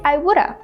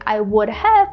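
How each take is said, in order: First: The last word shrinks to a weak syllable. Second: Each word is said fully and separately. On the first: "we can just say I woulda" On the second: "Instead of saying I would have"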